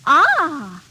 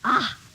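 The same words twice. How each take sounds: First: It sounds pleased. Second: It sounds disgusted.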